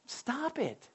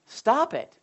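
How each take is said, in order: First: Softer, hushed Stop it. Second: Said in the usual way. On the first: Shown as a demonstration. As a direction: say Stop it softly to yourself.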